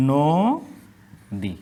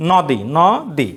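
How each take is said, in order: First: নদী split slowly, rounded "noo ... di"; as pronounced. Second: নদী with an open first vowel, "nɔ-di"; as written. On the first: Teacher showing students how নদী is really said, drawn-out "no ... di". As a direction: say নদী with a long closed "no", pause, "di". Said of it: "উচ্চারণের সময় আমরা উচ্চারণ করি". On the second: Teacher showing students how নদী is written, open "nɔ-di". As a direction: read নদী by its spelling, open "nɔ". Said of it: "আমরা লিখি". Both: Shown as a demonstration.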